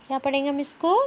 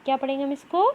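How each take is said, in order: Both takes have the same delivery.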